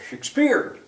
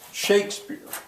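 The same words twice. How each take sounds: First: The stress is on the second syllable. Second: The stress is on the first syllable. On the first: The speaker calls it wrong. "Otherwise it would be" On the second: The speaker calls it right. "strong weak"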